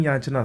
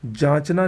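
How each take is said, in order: First: याचना opening with a y glide; correct pronunciation. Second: जांचना opening with a j sound; hard j to start जांचना; wrong pronunciation. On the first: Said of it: "सही होता है". (याचना में "य" की ध्वनि) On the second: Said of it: "नहीं". (जांचना में "ज" की ध्वनि) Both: Shown as a demonstration.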